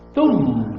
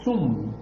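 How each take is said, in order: First: The word begins with a th sound. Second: The word begins with an s sound. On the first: The speaker calls it right. "Thum, not sum, with a T H" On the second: The speaker calls it wrong. "not sum"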